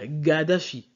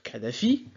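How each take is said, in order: First: The name starts with a G sound. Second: The name starts with a K sound. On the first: This is how English speakers say the name. "en anglais, on va dire Gaddafi" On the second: This is how French speakers say the name. "en français, on va dire Kadhafi"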